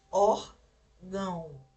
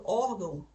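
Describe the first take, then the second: First: Órgão drawn out slowly, the nasal "gão" stopped up; blocked nasal ending. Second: Said in the usual way. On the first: Shown as a demonstration. Teacher showing nasal sound interrupted, órgão slow with blocked ending. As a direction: stretch "órgão" in two parts, blocking the nose on the ending. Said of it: "ele é interrompido". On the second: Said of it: "se eu falo órgão".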